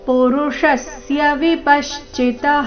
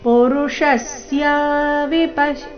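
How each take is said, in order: First: All syllables stay short in one continuous flow. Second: Some short syllables are stretched out long. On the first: The speaker calls it right. "ಈ ರೀತಿ continue ಆಗಿ ಹೇಳಬೇಕು" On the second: The speaker calls it wrong. "ಈ ರೀತಿ ದೀರ್ಘ ಮಾಡಬಾರ್ದು"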